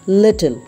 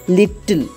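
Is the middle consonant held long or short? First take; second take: short; long. First: The middle consonant is short and light. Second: The middle consonant is held long and forceful. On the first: The speaker calls it right. "We have to pronounce it as little" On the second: The speaker calls it wrong. "pronouncing them with a greater degree of force ... but it's wrong"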